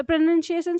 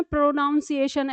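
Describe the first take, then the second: First: Said in the usual way. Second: प्रोनाउंसिएशन said with a "noun" in the middle; common mispronunciation. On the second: Shown as a demonstration. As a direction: say प्रोनाउंसिएशन as pro-noun-si-ation. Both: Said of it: "ऐसे बोलते हैं".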